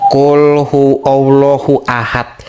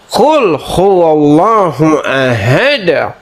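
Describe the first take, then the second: First: The final d stops flat with no echo. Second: The final d is released with a bouncing echo. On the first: The speaker calls it wrong. "Oh salah, salah, salah" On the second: The speaker calls it right. "harus ada, harus ada, ada gitu"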